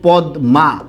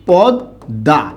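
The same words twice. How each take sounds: First: The middle cluster is said as d followed by m. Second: The middle cluster is said as a double d. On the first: This is how the word is written. "আমরা প্রকৃতপক্ষে এখানে লিখছি কি বলুন তো?" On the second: This is how the word is actually pronounced. "উচ্চারণ করি কি?"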